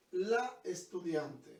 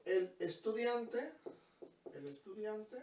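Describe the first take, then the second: First: Slow, stressed "la" in "la estudiante"; teacher stressing "la estudiante" to students; stress on the article. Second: Slow, stressed "el" in "el estudiante"; teacher stressing "el estudiante" to students; stress on the article. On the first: Teacher to students: slowly stressing "la". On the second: Teacher to students: slowly stressing "el". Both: Shown as a demonstration. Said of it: "poner el artículo el estudiante o la estudiante".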